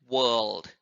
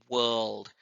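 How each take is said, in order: The two takes are said the same way.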